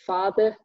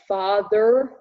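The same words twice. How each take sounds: First: The final vowel is a plain schwa, British accent. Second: The final vowel is r-colored, in an American accent. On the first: "if I tried a British pronunciation of father, it would be father" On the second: "you will find the R color schwa in words like father in American English"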